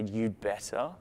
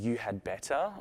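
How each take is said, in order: First: The word 'had' is reduced and joined to 'you'. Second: The word 'had' is said fully and separately.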